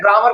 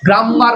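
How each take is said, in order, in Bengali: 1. m ধ্বনিটি একটি, ছোট করে বলা হয়। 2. m ধ্বনিটি দ্বিগুণ, দীর্ঘ করে বলা হয়। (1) "গ্রামার পড়ছি" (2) "অনেকগুলো ম পড়ছি গ্রামার এরকম পড়ছি না"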